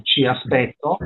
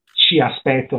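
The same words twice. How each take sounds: First: "ci" stressed and rising. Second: "ci" stressed. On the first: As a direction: lean on "ci" in "ci aspetto". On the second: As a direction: put the weight on "ci". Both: Shown as a demonstration. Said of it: "non vi aspetto, ci aspetto".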